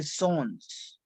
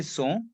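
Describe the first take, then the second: First: "sons" with the last S clearly sounded; final S pronounced. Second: "so" as sons without its ending consonants; final S dropped. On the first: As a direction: finish "sons" on an audible S. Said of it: "we have to pronounce S". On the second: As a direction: end "so" on the vowel, no S. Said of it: "I cannot say so". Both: Shown as a demonstration.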